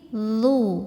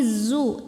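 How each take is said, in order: First: The consonant is a th sound. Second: The consonant is a z sound. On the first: The speaker calls it right. "tapi ini" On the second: The speaker calls it wrong. "jangan di belakang gigi"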